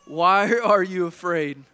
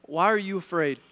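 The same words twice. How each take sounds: First: Slower, louder, with a laugh on "Why"; "Why are you afraid?" asked again, louder and slower with stress on "are"; pressing repeat. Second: Said in the usual way. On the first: Shown as a demonstration. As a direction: lean on "are" and press the question home. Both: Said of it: "Let me ask you this morning".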